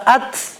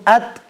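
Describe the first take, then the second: First: The sound ends with a puff of breath. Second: The sound ends cleanly without breath. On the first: The speaker calls it wrong. "nggak usah at" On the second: The speaker calls it right. "cukup at"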